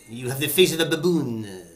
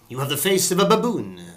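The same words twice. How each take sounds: First: It is spoken with a French accent. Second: It is spoken without a French accent. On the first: The speaker calls it wrong. "you don't need a French accent, do you?" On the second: The speaker calls it right. "you don't need the French accent there"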